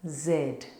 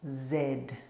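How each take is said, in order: First: It is said as zed, British style. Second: It is said as zed, British style.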